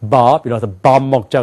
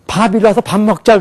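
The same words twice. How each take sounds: First: 밥 with a voiced b from the belly; English voicing. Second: 밥 said as an aspirated 팝 in "밥 일어나서 밥 먹자"; aspirated 팝, no voicing; Korean accent. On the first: Teacher imitates Americans: voiced deep bab. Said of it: "영어를 쓴 사람은". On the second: Teacher imitates Koreans: aspirated 팝. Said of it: "한국 사람들이 이래요". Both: Shown as a demonstration.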